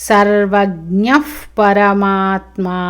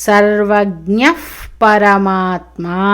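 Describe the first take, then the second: The two takes are said the same way.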